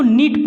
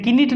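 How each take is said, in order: First: नीट said with the K silent, starting on N. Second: किनीट said with the K sounded, as a wrong example; wrong pronunciation, sounded K. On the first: Teacher gives students the right reading, K silent. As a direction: drop the K and say नीट. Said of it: "ये silent हो जाता है के". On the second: Teacher shows students the wrong way, K sounded. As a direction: sound the K in किनीट to show the mistake. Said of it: "किनीट नहीं". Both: Shown as a demonstration.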